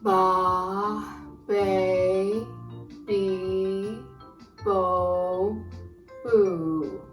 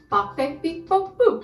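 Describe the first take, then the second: First: The syllables are said at a slow pace. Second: The syllables are said at a fast pace.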